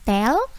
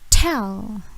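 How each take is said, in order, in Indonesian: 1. T dilepas tanpa hembusan yang kuat. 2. T dilepas dengan hembusan yang kuat. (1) "Bukan tell" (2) "Ingat T itu plosive, meledak"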